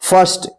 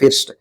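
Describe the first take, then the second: First: The vowel is an 'er' sound. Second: The vowel is a short 'i' sound. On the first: The speaker calls it right. "फर्स्ट पढ़ते हैं" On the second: The speaker calls it wrong. "फिस्ट मत पढ़िएगा"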